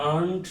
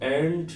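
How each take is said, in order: First: The vowel is an open 'ah' sound. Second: The vowel is a flat 'ae' sound. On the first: The speaker calls it wrong. "আমরা আন্ট বলি না" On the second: The speaker calls it right. "আমরা অ্যান্ট বলি"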